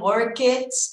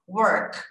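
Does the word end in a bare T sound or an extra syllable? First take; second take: extra syllable; bare T. First: The word ends with an extra vowel syllable. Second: The word ends in a bare T sound. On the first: The speaker calls it wrong. "Não tem esse e" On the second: The speaker calls it right. "E sim só worked. Só o som da consoante mesmo"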